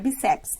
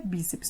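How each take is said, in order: First: The stress is on the last syllable. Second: The stress is on the first syllable. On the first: The speaker calls it wrong. "não é bíceps" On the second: The speaker calls it right. "a tonicidade está no bi"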